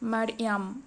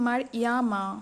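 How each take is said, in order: First: The word ends on a bare consonant. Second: The word ends with an added vowel. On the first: The reciter stops at this word. "এইটা বাদ দিয়ে সাকিন করে পড়তে হবে" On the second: The reciter continues without stopping. "নাহলে এটা হতো মার ইয়ামা"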